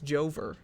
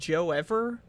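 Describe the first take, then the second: First: It is said as two syllables, Jo-ver. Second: It is split into three syllables, Joe-Ev-er.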